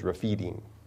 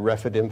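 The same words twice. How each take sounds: First: The second vowel is a long ee sound. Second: The second vowel is a short i sound. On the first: The speaker calls it right. "but it is Rephidim" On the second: The speaker calls it wrong. "I've said Rephidim for a long time"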